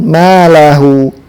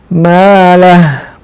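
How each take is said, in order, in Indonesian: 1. Kata ini berakhir dengan vokal u. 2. Kata ini berakhir dengan bunyi h mati. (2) "kita membaca ha ini dengan sukun"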